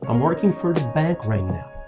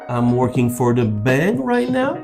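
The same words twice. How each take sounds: First: The voice falls at the end. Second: The voice rises at the end. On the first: The speaker is confident. The speaker calls it right. "if you drop your tone in the end" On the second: The speaker is unsure. The speaker calls it wrong. "if you rise up in the end"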